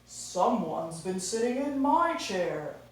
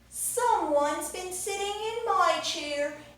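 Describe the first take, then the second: First: It is said in a daddy bear voice. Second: It is said in a baby bear voice.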